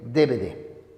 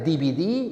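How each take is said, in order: First: The letters are named with Spanish letter names. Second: The letters are named with English letter names. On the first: The speaker calls it right. "Es solamente" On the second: The speaker calls it wrong. "nada de D V D"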